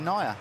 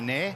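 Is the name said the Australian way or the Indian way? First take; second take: Indian; Australian. First: The name is pronounced the Indian way. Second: The name is pronounced the Australian way. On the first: This is how the name is said in India. "If I was in India, it'd be Naya" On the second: This is how the name is said in Australia. "in Australia you can call me Nair"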